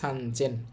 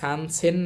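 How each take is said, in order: First: The second syllable starts with a Z sound. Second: The second syllable starts with an S sound. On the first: The speaker calls it right. "এটার উচ্চারণ হবে সানজেন" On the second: The speaker calls it wrong. "উচ্চারণ সানসেন না হয়ে"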